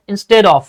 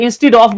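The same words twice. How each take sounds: First: "Instead of" as in-sted of; corrected pronunciation. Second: "instead of" as in-steed of; the wrong "instead of", steed for stead; mistaken pronunciation. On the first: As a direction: say "Instead of" with a short e. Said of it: "এটা কি হবে?". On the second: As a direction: say "instead of" with a long ee. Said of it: "বলছি আমরা". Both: Shown as a demonstration.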